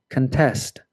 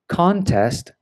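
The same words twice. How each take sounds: First: Con-TEST, with the stress on TEST; weak first syllable in contest, strong second. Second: CON-test, with the stress on CON; first-syllable stress. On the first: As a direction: say contest as the verb, kun-TEST. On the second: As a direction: say contest as the noun, CON-test. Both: Shown as a demonstration. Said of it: "it can change the pronunciation".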